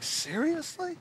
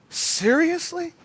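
First: Soft, high rising question; quiet disbelief. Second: Slow, high incredulous question; drawn-out disbelief. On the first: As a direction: ask it under your voice, stunned. Acting stunned disbelief, first take. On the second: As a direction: stretch the word out as you question it. Stunned disbelief, slower repeat. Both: Retold or imitated.

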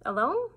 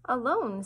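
First: "Alone?" rising high and louder, incredulous; "Alone?" pushed up in disbelief. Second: "Alone?" said with a falling tune, flat surprise; "Alone?" dropping at the end, puzzled. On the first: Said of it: "Alone? said again". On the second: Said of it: "Alone? repeated with rising tune". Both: Acted.

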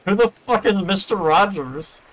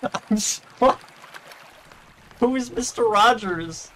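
First: High, slow disbelieving question; incredulous. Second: High, slow baffled question; incredulous. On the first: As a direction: ask in baffled disbelief. Baffled outburst at a name. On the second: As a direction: drag it out in disbelief. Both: Real, not acted.

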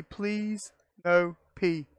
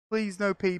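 First: Slow pleading drawl; slow drawn-out plea. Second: Said in the usual way. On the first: Real, not acted. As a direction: stretch each word slowly, begging. Pleading with game not to.

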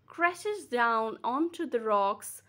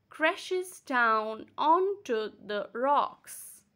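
First: Said in the usual way. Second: Crashes down onto the rocks in slow separate beats; split into syllables. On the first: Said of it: "Another example is". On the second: Shown as a demonstration. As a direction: pause between beats, onto as on-to. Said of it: "You can break the words".

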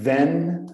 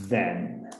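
First: "Then" with an open e like "ven". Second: "then" with a soft th and short e; tongue between teeth for "then". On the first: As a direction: say "Then" with a Portuguese-style e. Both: Shown as a demonstration. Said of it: "Não é a mesma coisa pronunciar then".

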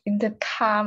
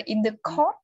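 First: "car" with an open ah vowel; intended "car" sound. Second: "court" with a rounded aw vowel; misheard as "court". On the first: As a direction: say "car" as kah, mouth open. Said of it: "mà cứ nghe là in the court". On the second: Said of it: "cứ nghe là in the court". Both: Shown as a demonstration.

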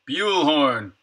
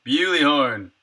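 First: "Buell" as "byool", no ee ending; one-syllable BUELL. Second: "Bewley" sounded out as "BYOO-lee"; two-syllable BEWLEY. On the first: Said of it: "Man, that's hard to say". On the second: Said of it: "Is it Bewley horn or Bully horn?". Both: Shown as a demonstration.

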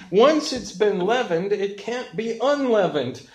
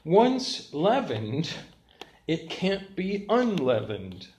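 First: "leavened" and "unleavened" hit louder and higher; emphatic preaching. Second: Each word laid down slowly; preacher pausing over "Once leavened"; slow, deliberate statement. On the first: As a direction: drive the point home with force. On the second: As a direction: spell out the point word by word. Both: Shown as a demonstration. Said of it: "The third point is this".

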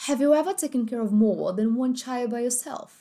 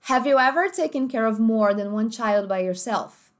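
First: "more" with the final r dropped, like "maw"; British accent. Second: "more" with a full American r, like "morr"; American accent. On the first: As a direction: say "more" with no r at the end. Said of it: "Agora, britânico". ("more" sem o r, britânico) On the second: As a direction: stress the r in "more". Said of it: "Americano, primeiro". ("more" com r americano bem marcado) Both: Shown as a demonstration.

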